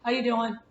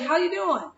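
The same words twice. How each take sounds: First: It is said flatly, without any happiness. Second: It is said in a cheerful, friendly tone.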